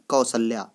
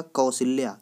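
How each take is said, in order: First: कौशल्या with a short a in the middle, kau-sha-lya; correct spelling said. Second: कौशल्या with an i in the middle, ko-shi-lya; wrong spelling said. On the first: Teacher giving exam students the right spelling, kaushalya. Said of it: "शुद्ध क्या होता है?". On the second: Teacher warning exam students of the wrong spelling, koshilya. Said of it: "कौशल्या शब्द गलत होता है". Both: Shown as a demonstration.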